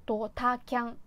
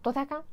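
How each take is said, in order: First: ドタキャン drawn out, beat by beat; slow pronunciation. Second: ドタキャン rushed and run together; fast attempt. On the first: Showing it is manageable slowly, ドタキャン carefully drawn out. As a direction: say ドタキャン slowly, stretching each part. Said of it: "これゆっくりだと喋れるんですよ". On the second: Testing a tricky word at speed, ドタキャン rushed. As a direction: say ドタキャン quickly in one go. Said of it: "早くだと". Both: Shown as a demonstration.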